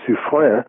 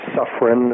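First: The name is pronounced the French way. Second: The name is pronounced the American English way.

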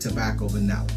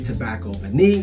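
First: The last word ends with an 'uh' sound. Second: The last word ends with an 'ee' sound. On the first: "some people say tobacco vanilla" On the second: "some people say tobacco vanille"

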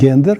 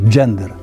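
First: The word begins with a hard g sound. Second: The word begins with a j sound. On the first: The speaker calls it wrong. "бо в них немає звука «г», і тому вони кажуть «гендер»" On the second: The speaker calls it right. "А насправді треба казати «джендер»"

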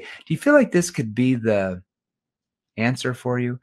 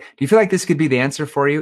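First: The question contains a deliberate pause. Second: The question runs straight through quickly without pausing. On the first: It makes the listener think deeper about the question. The speaker calls it right. "we have that verbal pause there" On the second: It invites a knee-jerk answer. The speaker calls it wrong. "if you don't use a verbal pause, you're like"

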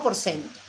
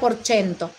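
First: The c is said as an s sound. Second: The c is said as a ch sound. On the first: "si tengo que pronunciarlo así en como lo leo, es porcento con C" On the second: "pronunciarlo como el italiano, que sería porcento, porque la C se pronuncia como una CH"

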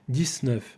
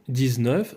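First: The middle consonant is a voiceless s sound. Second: The middle consonant is a voiced z sound. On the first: This pronunciation is increasingly common. "все частіше вимовляється «дісньов»" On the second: This is the standard pronunciation. "стандартний варіант зі звуком з «дізньов»"

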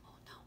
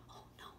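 The two takes are said the same way.

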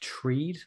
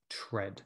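First: The vowel is long, as in seed. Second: The vowel is short, as in bed. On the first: The speaker calls it wrong. "That looks a little bit like treed" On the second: The speaker calls it right. "but the pronunciation is actually tread"

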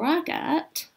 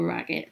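First: It is said in a put-on child-like voice. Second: It is said in the speaker's normal voice.

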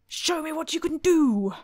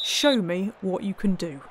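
First: It is said in an agitated, forceful way. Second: It is said in a calmer, quieter way. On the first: The speaker calls it wrong. "That wasn't very calm, was it?" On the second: The speaker calls it right. "That's as calm as I'm going to get"

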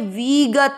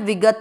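First: The first vowel is drawn out long. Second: The first vowel is kept short. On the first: The speaker calls it wrong. "विगत ऐसे नहीं करना" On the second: The speaker calls it right. "वी की मात्रा छोटी है"

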